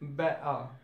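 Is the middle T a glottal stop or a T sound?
glottal stop. The middle T is replaced by a glottal stop.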